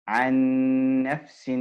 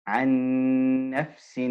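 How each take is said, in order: The two takes are said the same way.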